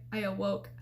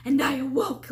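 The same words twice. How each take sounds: First: Said in the usual way. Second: A burst of lively energy on awoke; acted-out start of waking; animated retelling. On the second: Shown as a demonstration. Retelling waking from the nightmare, animated burst. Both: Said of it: "I'm all animated or whatever".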